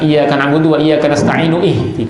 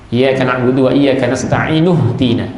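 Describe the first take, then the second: First: Ihdina starts separately with its own glottal stop. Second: Ihdina is joined smoothly to the preceding word. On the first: The speaker calls it wrong. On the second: The speaker calls it right. "Jadi langsung sambung"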